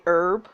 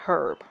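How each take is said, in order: First: "herb" with the H silent, as "erb"; slow, low "herb" starting on the vowel; American "herb". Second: "herb" with the H sounded at the start; slow, low "herb" with a breathed H; British "herb". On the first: Player explaining what Americans say, H-less "herb". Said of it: "we drop the H". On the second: Player explaining what Brits say, "herb" with its H. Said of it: "but Brits will say it". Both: Shown as a demonstration.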